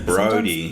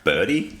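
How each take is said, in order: First: The name sounds like Brody, with clear r-o. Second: The name sounds like Birdie, with rounded vowels. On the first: This is the name's real pronunciation. The speaker calls it right. "I'm like, Brody" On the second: This is how others mispronounce the name. The speaker calls it wrong. "Germans always call me ... like Birdie or Bordy"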